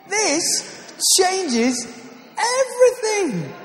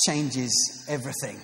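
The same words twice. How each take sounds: First: Much higher, louder, slow "changes everything"; hammed-up salesman shouting the slogan; infomercial climax. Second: Said in the usual way. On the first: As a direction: peak of the pitch, drawn-out and exultant. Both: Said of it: "not a sales pitch".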